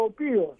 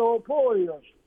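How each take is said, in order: First: Said in the usual way. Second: Οπόιος with ο and ι sounded separately; ancient pronunciation. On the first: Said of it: "το οποίο είναι ο οποίος". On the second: Shown as a demonstration. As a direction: split the οι in οπόιος, stressing the ο. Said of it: "αλλά πολύ ελαφρύ".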